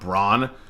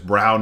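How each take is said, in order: First: The vowel sounds like the one in 'lawn'. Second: The vowel sounds like the one in 'down'. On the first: The speaker calls it wrong. "not Braun. I've been saying it like Braun" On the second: The speaker calls it right. "the pronunciation is Brown"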